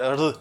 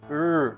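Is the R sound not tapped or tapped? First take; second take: tapped; not tapped. First: The R is a quick tap, like flat D. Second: The R is a smooth sound, not tapped. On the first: The speaker calls it wrong. "not R. ... like a tap or like a flat D" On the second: The speaker calls it right. "You pronounce the letter R as R"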